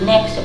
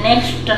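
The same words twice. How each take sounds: First: The final T sound is left silent. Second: A T sound is heard at the end. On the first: The speaker calls it right. "टी silent रहता है" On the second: The speaker calls it wrong. "नहीं"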